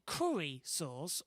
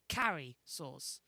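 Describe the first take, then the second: First: The first vowel is the vowel of 'curry'. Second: The first vowel is the vowel of 'carry'. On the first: The speaker calls it right. "It's curry" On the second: The speaker calls it wrong. "as she puts it, like a carry"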